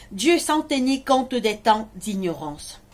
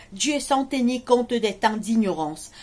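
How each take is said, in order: Both takes have the same delivery.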